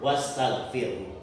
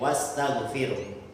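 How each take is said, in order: Both takes have the same delivery.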